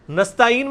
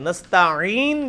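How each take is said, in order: First: نستعین with a plain "a-een", no throat squeeze; alif instead of 'ain. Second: نستعین drawn out with a pharyngeal 'ain before "een"; proper 'ain. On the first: Teacher explains the students' error, alif instead of 'ain. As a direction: say نستعین lightly as if with hamza. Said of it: "الف یا حمزہ پڑھ دیا ہے". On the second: Teacher shows the corrected word, proper 'ain. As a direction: squeeze the throat midway through نستعین and hold it. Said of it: "جب پڑھیں گے وہ عین ہوگا". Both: Shown as a demonstration.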